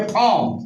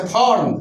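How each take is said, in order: First: फॉर्म said as "fawm", r dropped; silent r. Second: Said in the usual way. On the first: Shown as a demonstration. Teacher shows phonetic reading, फॉर्म without its r. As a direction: say फॉर्म with no r before the m. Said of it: "फोनेटिकल में बोलेंगे". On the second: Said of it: "इसको हम फॉर्म नहीं".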